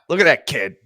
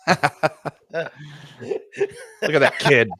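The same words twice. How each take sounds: First: It is said in an angry, annoyed tone. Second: It is said in a plain, neutral tone.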